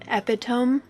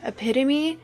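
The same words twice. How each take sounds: First: It is said with three syllables, ending in 'tome'. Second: It is said with four syllables, ending in 'mee'. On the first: The speaker calls it wrong. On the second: The speaker calls it right.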